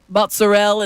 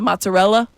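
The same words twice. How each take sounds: First: The final vowel is dropped. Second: The final vowel is pronounced. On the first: This is how local Italian speakers say it. "Italians say, like, mozzarella" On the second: This is the standard way to say it. "instead of"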